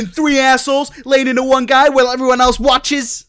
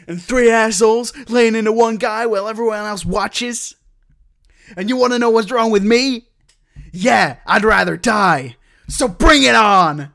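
First: Louder, much higher American hero delivery; better American accent. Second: Mock American hero voice, louder and higher; American accent. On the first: Shown as a demonstration. Redoing the line on request, bigger American accent. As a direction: give it full movie-hero American gusto. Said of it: "do you want me to do it better?". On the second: Retelling favorite movie line to friend, hammy American accent. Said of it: "Why do you do the voice?".

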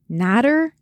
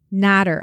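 First: "Niter" with a rising, questioning end; "Niter" lifted at the end. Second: "Niter" with a falling, settled end; "Niter" dropped at the end; matter-of-fact reply. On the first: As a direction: ask "Niter" as a puzzled question. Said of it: "he finally asked". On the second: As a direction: state "Niter" as a confirming answer. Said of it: "I replied". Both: A narrator's reading.

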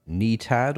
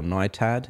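First: First vowel of Nitad like "knee"; alternative pronunciation. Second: First vowel of Nitad rhyming with "eye"; alternative pronunciation. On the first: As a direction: say Nitad as NEE-tad. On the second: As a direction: say Nitad as NYE-tad. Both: Shown as a demonstration. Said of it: "Not sure how to pronounce that".

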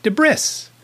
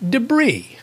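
First: "debris" misread with the s sounded; mispronunciation. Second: "debris" said with a silent s; correct pronunciation. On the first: Retold or imitated. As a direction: say "debris" as duh-BRISS, slowly. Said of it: "Not to this guy. It was". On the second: Shown as a demonstration. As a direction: say "debris" as duh-BREE, pitched high. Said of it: "Not to this guy".

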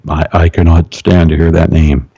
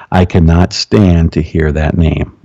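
First: Low, altered possessed voice; deep demon voice. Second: Lower, slow spirit voice speaking through the woman; slow, lowered possessed voice; deep demon voice. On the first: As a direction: let a foreign spirit speak through you. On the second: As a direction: drag it out low like a demon. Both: Retold or imitated. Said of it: "Probably in that tone with my deep one".

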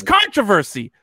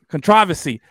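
First: Controversy stressed on the first syllable, CON-tro-ver-sy; American pronunciation. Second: Controversy? stressed on the second syllable, con-TROV-ersy; British pronunciation. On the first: Retold or imitated. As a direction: imitate the commentator saying controversy the American way. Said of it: "his accent changed". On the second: Shown as a demonstration. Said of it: "How do they say co".

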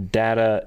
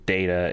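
First: "data" with a short open A, DAT-uh; DATA as "datta". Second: "data" with a long A, DAY-tuh; DATA as "dayta". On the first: Giving the dictionary's UK version, "data" as "datta". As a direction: say "data" without any "day" sound. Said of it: "is the U K's version". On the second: Giving the dictionary's American version, "data" as "dayta". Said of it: "America version". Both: Shown as a demonstration.

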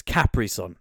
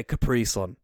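First: "Capri" said CAP-ree, stress on the first syllable; own pronunciation. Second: "Capri" said kuh-PREE, stress on the second syllable; unusual pronunciation. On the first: Host giving their own way to say the drink, "Capri" stressed up front. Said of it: "is what I would say". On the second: Host rejecting a drink name's other pronunciation, "Capri" stressed at the end. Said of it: "I would never say". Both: Shown as a demonstration.

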